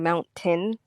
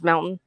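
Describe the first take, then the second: First: The t sound in the middle is pronounced. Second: The t sound in the middle is dropped. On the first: "instead of it being mountain" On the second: "we don't pronounce our T's"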